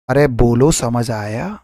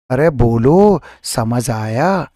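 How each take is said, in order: First: Said in the usual way. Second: अरे बोलो समझ आया stretched very slowly; teacher coaxing the class to answer, slowly; drawn out question. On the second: Shown as a demonstration. Slow coaxing call.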